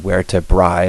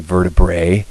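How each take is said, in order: First: It is pronounced the Latin way. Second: It is pronounced the English way. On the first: "in Latin, of course, this would be" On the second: "in English, ... the plural we say"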